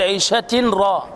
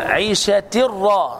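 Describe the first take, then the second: First: The n is pronounced before the r. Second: The n merges fully into a doubled r. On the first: The speaker calls it wrong. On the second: The speaker calls it right.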